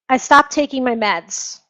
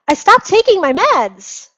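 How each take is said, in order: First: The voice sounds unhappy and distressed. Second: The voice sounds happy and upbeat. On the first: The medication makes them feel terrible. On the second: Therapy is working and they feel better.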